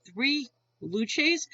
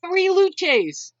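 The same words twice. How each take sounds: First: Baffled question with a rising end; retold blank disbelief, lifting at the end; puzzled echo. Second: Higher, louder imitation of a tickled joker; mock-delighted repeat, pitched up and punched out; mimicked amusement. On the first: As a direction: repeat it as if it makes no sense. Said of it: "even I'm looking at him". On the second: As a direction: crow it like your own punchline. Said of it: "he starts cracking up laughing".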